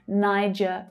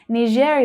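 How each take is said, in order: First: It sounds English, like the start of Nigeria. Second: It sounds close to the French pronunciation. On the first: "you'll hear Niger quite a lot as well. And that might be because of Nigeria" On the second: "Niger is much closer to the French pronunciation of this word"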